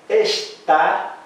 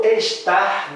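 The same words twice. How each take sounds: First: "está" split slowly, ending on an open stressed "tá"; accented final syllable. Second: "estar" drawn out slowly, higher, ending in an R; infinitive with R. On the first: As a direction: draw out "está", weight on the last vowel. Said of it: "Agora eu digo". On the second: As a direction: stretch "estar" as the infinitive option. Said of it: "com acento ou com R". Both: Shown as a demonstration.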